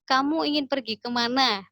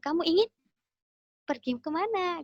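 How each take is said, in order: First: It is said without a pause. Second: It is said with a pause inside.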